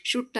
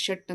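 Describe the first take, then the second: First: ಶುಟ್ said "shoot" with a short oo; mistaken "u" vowel. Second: ಶಟ್ with the "uh" vowel of "cup"; correct short "uh". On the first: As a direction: show the error ಶುಟ್, vowel as in "put". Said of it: "ಶುಟ್ ಅನ್ನೋಕ್ಕಾಗಲ್ಲ". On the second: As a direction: model ಶಟ್ as "shuht". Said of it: "ಶಟ್ ಅಂತಲೇ ಅನ್ಬೇಕಾಗತ್ತೆ". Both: Shown as a demonstration.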